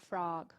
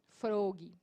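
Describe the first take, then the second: First: The vowel is open, between O and A. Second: The vowel is a rounded O sound. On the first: The speaker calls it right. "é entre o O e o A" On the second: The speaker calls it wrong. "não tem som de bog"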